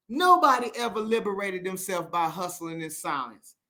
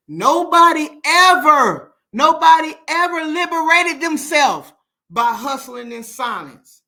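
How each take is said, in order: First: Said in the usual way. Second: Loud, high, slowed preaching; loud call-out to viewers who stay silent; preaching shout. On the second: Real, not acted. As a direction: hammer it home like a sermon. Preaching against hustling in silence.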